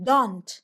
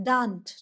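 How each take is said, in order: No difference in how they are said.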